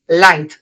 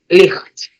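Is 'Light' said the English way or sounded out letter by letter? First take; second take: English way; letter by letter. First: It is said like English 'light', as one word. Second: It is sounded out letter by letter, Spanish-style. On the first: The word is recognised whole, as a block. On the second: The word is decoded sound by sound.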